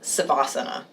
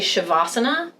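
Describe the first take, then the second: First: The word begins with an s sound. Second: The word begins with an sh sound. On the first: The speaker calls it wrong. "and not Savasana" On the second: The speaker calls it right. "please say Shavasana"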